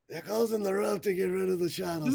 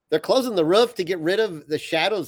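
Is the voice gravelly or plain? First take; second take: gravelly; plain. First: It is said in a put-on gravelly voice. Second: It is read in a plain, ordinary voice. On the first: "He's got kind of a gravelly, kind of an old guy voice" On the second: "It didn't sound anything like David Ross"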